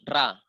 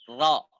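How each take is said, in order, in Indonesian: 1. Suku kata R ringan, vokalnya a terbuka. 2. Suku kata R berat, vokalnya dibulatkan. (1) "terkadang disebut ra" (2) "Ro itu dia di sini tebal"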